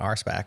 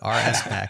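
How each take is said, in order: First: The S blends into one syllable, spack. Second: The letters R and S are said separately. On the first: The speaker calls it wrong. "I used to call it R SPAC" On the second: The speaker calls it right. "makes way more sense"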